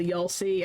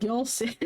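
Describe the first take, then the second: First: "y'all see" with a slight Southern drawl on y'all; Southern slip. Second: "Y'all see" repeated in a light mock Southern accent, y'all stressed; hammed-up Southern "Y'all", a touch higher. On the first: Real, not acted. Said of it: "my accent slipped on the". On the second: Shown as a demonstration. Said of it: "I was like".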